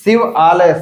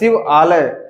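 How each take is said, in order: First: Two words are said separately, vowels kept apart. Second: Two words are said separately, vowels kept apart.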